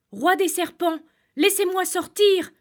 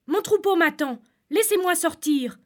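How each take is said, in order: First: High, loud, desperate cry; shouting with all his strength. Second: Pleading. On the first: Shepherd trapped in the cave shouts to the serpent king. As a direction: yell it out as loud as you can, begging. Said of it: "cria le berger de toutes ses forces". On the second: Shepherd pleads to be let out. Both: Acted.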